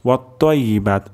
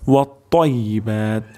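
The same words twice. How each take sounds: First: The t is a light, thin t sound. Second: The t is a heavy, thick t sound. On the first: The speaker calls it wrong. "তাহলে কিন্তু তা হয়ে যাবে" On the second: The speaker calls it right. "ত উচ্চারণ করতে হবে এবং তর উচ্চারণটি মোটা হবে"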